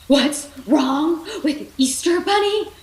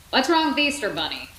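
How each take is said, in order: First: High, loud, slowed frantic shout; panicked shout. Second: Said in the usual way. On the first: Acted. Rex shouting back at Ham in panic, loud and high. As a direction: yell it back in disbelief. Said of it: "Rex shouted". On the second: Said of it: "Ham said".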